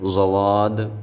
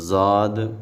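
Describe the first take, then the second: First: The letter is said with a w-glide. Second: The letter is said light, not heavy. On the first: "ज़वाद ऐसे नहीं पढ़ेंगे" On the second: "ज़ाद ऐसे नहीं पढ़ेंगे"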